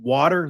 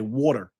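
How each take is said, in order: First: It is said in a general accent. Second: It is said in a New Jersey accent.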